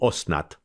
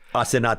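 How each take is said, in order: First: It is said in an Orthodox Hebrew accent. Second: It is said in a standard Hebrew accent. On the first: "Orthodox accented Hebrew" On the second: "Asenat is how you'd say it in Hebrew"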